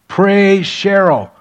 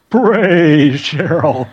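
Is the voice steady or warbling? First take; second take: steady; warbling. First: The voice is steady and unwavering. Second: The voice wavers up and down.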